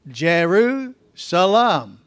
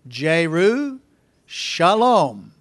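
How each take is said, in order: First: The middle consonant is an 's' sound. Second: The middle consonant is an 'sh' sound. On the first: "It's just our Texas accent" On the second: "how it's said in Hebrew"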